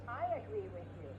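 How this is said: The stress falls on the word I. "people always stress the first word"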